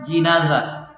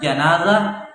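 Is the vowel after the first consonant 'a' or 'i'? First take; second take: i; a. First: The first syllable has the vowel 'i'. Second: The first syllable has the vowel 'a'. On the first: It names the bier while the body lies on it. "bisa dibaca jinazah wa kasriha, dibaca kasrah" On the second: It names the dead person lying on the bier. "bisa dibaca janazah bi fathil jim, jimnya di fathah"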